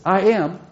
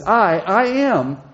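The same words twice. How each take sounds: First: Said in the usual way. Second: "I" repeated and leaned on, a little slower; stress on I. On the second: Shown as a demonstration. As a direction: hit the word "I" twice, firmly. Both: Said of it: "He's emphasizing this".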